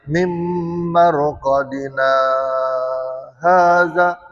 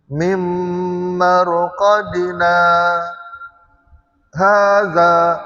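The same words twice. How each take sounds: First: It runs on without a stop after 'marqadina'. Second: There is a clear stop after 'marqadina'. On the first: The speaker calls it wrong. "dia tak boleh mim marqadina haza, dia tak putus" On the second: The speaker calls it right. "Dia mesti putus ya"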